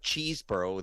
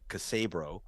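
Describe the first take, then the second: First: The name begins with a 'cheese' sound. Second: The name begins with a 'cassa' sound.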